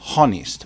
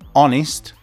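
First: The word starts with an h sound. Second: The word starts with no h sound. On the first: The speaker calls it wrong. "not honest" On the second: The speaker calls it right. "the pronunciation is honest"

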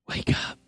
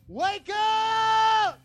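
First: It is whispered softly. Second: It is said in a loud voice.

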